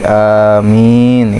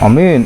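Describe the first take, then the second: First: The first vowel is long and the m doubled. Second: The first vowel is short and the m single. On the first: The speaker calls it right. "dibaca panjang alif hamzahnya dan tasydid" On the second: The speaker calls it wrong. "nah salah itu"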